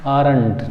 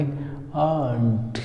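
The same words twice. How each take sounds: First: आरंट in two syllables, r sounded; everyday wrong आरंट with a clear r; common misreading. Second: आंट as one drawn-out "aant"; slow corrected आंट in one syllable; silent r, long vowel. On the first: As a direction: read आरंट as "aa-rant". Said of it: "इसको हम क्या पढ़ते हैं?". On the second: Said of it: "इसको पढ़ेंगे आंट". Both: Shown as a demonstration.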